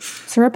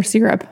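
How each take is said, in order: First: "Syrup" with an "ur" first vowel; SIR-up pronunciation. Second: "syrup" with an "ee" first vowel; SEER-up pronunciation. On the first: Asking co-host how it's said, "Syrup" as SUR-up. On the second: Offering co-host the other way, "syrup" as SEER-up. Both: Shown as a demonstration. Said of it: "Syrup or syrup, by the way?".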